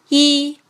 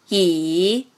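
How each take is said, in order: First: The pitch stays high and level. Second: The pitch dips low, then rises. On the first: "一声平" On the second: "三声拐弯"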